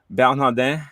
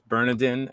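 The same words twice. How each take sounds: First: The name is said with French pronunciation. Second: The name is said with American pronunciation. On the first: "if you're of Haitian descent, you can pronounce it Bernardin" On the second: "in the states, it's Bernardin"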